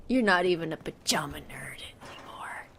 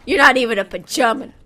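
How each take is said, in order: First: Soft, low whispered taunt; muttered secret insult. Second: Quick, loud little insult; rapid teasing taunt; fast jab. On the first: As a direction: hiss it under your breath. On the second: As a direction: fire it off quickly. Insult repeated as whisper. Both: Real, not acted.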